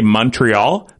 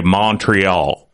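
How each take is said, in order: First: "Montreal" said the local way, mun-tree-AWL; plain Canadian "Montreal" before the American take. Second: "Montreal" drawn out slow with a broad MAH vowel; American Montreal. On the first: Shown as a demonstration. Host contrasting a Canadian's Montreal with an American's. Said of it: "they say Montreal". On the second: Retold or imitated. Guest imitating an American saying the city name. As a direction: mimic how an American says "Montreal", slowly. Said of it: "When they say Montreal".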